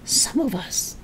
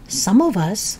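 First: Throaty witchy whisper; old woman whispering. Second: Said in the usual way. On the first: Acted. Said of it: "whispering in a throaty sort of voice".

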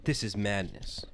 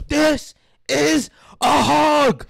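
First: Said in the usual way. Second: Very high, loud, slow battle cry; hammed-up warrior shout; Sparta-style yell. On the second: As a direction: roar each word separately and drawn out. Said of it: "you have to, like, almost yell it".

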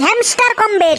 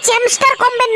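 First: হ্যামস্টার কমব্যাট with a clear h at the start, corrected; correct name. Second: চ্যামস্টার কমব্যাট with a ch sound at the start, mocking the wrong name; mock mispronunciation চ্যামস্টার; wrong name mimicked. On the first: Shown as a demonstration. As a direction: stress হ্যামস্টার, falling and firm. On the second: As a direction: say চ্যামস্টার with a ch, as the mistake. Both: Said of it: "না হয়, হ্যামস্টার কমব্যাট".

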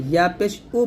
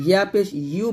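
First: উ as a bare vowel, no Y; Ya turned hamza. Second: ইউ with a Y glide, "yoo"; clear Ya. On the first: Teacher showing pupils the mistake, Y dropped. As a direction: end ইয়া পেশ উ on plain oo. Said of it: "বলবেন না". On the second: Teacher giving pupils the correct form, Y sounded. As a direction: sound the Y at the start of ইউ. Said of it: "বলবেন". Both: Shown as a demonstration.

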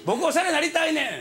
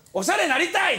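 First: Eager plea. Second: Eager blurt. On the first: Repeated eager request. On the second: Blurting request to fashion mentor. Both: Retold or imitated.

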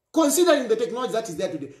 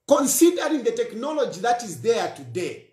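First: Very fast, running the words together; rushed repeat. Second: Said in the usual way. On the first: Real, not acted. Speaker warning police about faked voices, rapid repeat. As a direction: rattle it off quickly the second time. Repeats phrase, second much faster.

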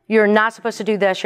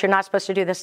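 First: "You're not supposed to do this" with You're hit louder and the line falling; stress on YOU'RE. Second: "You're not supposed to do this" with not leaned on, said at normal loudness; stress on NOT. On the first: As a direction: scold like a rule list, leaning on You're. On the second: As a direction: repeat the rule, pressing on not. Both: Retold or imitated. Mocking a list of rules.

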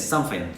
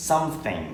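First: "something" with an f, "sumfing"; "something" said British-style as "sumfing"; London f for th in "something". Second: "something" with a hard t, "sumting"; Thai-style t in "something". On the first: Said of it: "จะเป็น something". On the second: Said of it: "แทนที่จะบอกว่า". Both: Shown as a demonstration.

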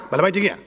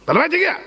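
First: Said in the usual way. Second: Higher, rising call that the owner is here; excited announcement. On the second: Retold or imitated. Rabbi voicing the household telling the dog the owner has arrived, excitedly. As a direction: announce it gleefully, voice lifting at the end.

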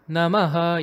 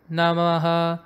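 First: Namaha with the maha rising in pitch; raised maha. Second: Namaha kept on one level pitch; flat namaha. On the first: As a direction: lift the maha in namaha upward. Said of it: "you're actually raising the pitch of maha". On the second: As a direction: keep namaha flat, no rise on maha. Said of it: "putting it in a flat pitch". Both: Shown as a demonstration.

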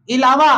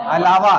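First: "इलावा" opening on i, i-laa-vaa, louder; wrong pronunciation. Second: "अलावा" opening on short a, a-laa-vaa; correct pronunciation. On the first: Teacher shows how people say "इलावा", opening on i. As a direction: start "इलावा" with a short ee. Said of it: "इलावा नहीं होता". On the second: Teacher answers with corrected "अलावा", opening on a. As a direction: start "अलावा" with uh, not ee. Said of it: "क्या होता है". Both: Shown as a demonstration.

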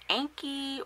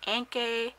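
First: Anki ending in a long "ee" sound; first pronunciation guess. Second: Anke ending in an "ay" sound; alternative pronunciation guess. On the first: Reviewer trying out the camera brand's name, Anki with an "ee" ending. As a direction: say Anki as "ANK-ee". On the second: Reviewer second-guessing the camera brand's name, Anke with an "ay" ending. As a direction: say Anke as "ANK-ay", questioning. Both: Shown as a demonstration. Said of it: "I'm not sure how to pronounce it".

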